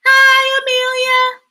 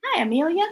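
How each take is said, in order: First: High, loud sing-out hello; group greeting. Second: Said in the usual way. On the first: Shown as a demonstration. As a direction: lead a class of children greeting a newcomer. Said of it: "Everybody say hi to Amelia".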